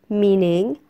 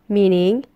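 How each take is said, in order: No difference in how they are said.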